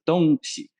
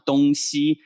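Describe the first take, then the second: First: The second syllable carries a neutral tone. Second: The second syllable carries a full tone. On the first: The speaker calls it right. "you pronounce it 东西. The second syllable, xi, ... neutralized" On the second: The speaker calls it wrong. "You do not pronounce it"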